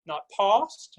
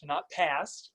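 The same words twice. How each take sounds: First: Past with a broad British ah. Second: Past with a flat American a, softer. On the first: Coach shows the vowel to avoid: British past. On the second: Coach shows the other vowel to avoid: flat American past. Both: Shown as a demonstration.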